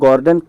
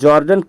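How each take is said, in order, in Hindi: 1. नाम की शुरुआत G की आवाज़ से होती है। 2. नाम की शुरुआत J की आवाज़ से होती है। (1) "गॉर्डन कुक भी पढ़ सकते हैं" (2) "इसको जॉर्डन कुक भी पढ़ सकते हैं"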